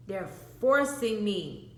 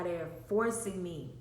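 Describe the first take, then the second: First: "forcing" drawn out slowly and louder; stress on forcing. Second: Said in the usual way. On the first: Retold or imitated. Child explaining to babysitter, "forcing" stretched and loud. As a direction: hit "forcing" hard and stretch it.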